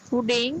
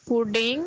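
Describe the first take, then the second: Both takes have the same delivery.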